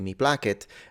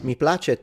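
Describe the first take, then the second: First: It uses restored classical Latin pronunciation. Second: It uses ecclesiastical Latin pronunciation. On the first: "placet is how the Romans pronounced it" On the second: "when you pronounce it in the ecclesiastical pronunciation"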